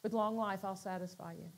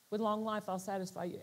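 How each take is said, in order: First: Low, much softer, gentle; soft little voice. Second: Low and much softer; calm quiet voice. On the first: The still small voice promising life, soft and low. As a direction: let it barely float out. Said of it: "this little soft voice". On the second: The small voice in his heart, calm and quiet. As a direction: breathe it gently. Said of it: "just calm, quiet". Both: Retold or imitated.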